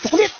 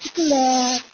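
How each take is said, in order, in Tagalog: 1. Sinabi ito gamit ang matigas at parang galit na Cebuano na accent. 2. Sinabi ito gamit ang malambing at malambot na Ilonggo na accent. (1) "Pag nasa Cebu ako ... Parang galit yung tao sa akin" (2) "Pag nasa Iloilo naman, Bacolod, siyempre may lambing yun"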